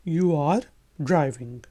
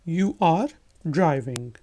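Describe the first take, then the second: The two takes are said the same way.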